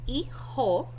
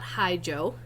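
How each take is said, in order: First: The j sounds like an h; the h is silent. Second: The j does not sound like an h. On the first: The speaker calls it right. "So it's pronounced hijo" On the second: The speaker calls it wrong. "not hijo"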